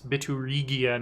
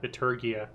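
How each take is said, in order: First: It has an extra syllable before 'gia'. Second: It has no extra syllable before 'gia'. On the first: The speaker calls it right. "It's Biturigia" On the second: The speaker calls it wrong. "not Biturgia"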